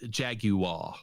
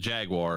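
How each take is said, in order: First: It is said in an imitated British accent. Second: It is said in the speaker's usual American way.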